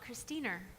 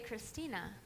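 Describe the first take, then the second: First: The name ends with an added r sound. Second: The name ends in a plain vowel. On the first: "it would come out Christiner" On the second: "you should have had her say Christina"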